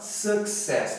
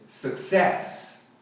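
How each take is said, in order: First: The stress is on the first syllable. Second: The stress is on the second syllable. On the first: The speaker calls it wrong. "a primeira, primeira sílaba enfatizada, mas não é" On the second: The speaker calls it right. "é a segunda"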